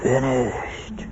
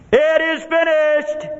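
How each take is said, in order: First: Soft, spent dying breath; weak gasp. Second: High, slow triumphant cry; loud cry. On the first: Shown as a demonstration. Preacher showing how Jesus did not say it, weak gasp. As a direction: let it out faintly on failing breath. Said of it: "it wasn't". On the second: Acted. Jesus on the cross as all is fulfilled, loud cry. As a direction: cry it out high, stretching each word. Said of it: "With a loud voice".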